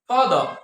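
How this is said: The final r sound is dropped. "আর উচ্চারণটা আ হয়ে যাবে"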